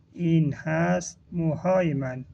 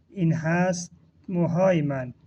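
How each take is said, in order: Both takes have the same delivery.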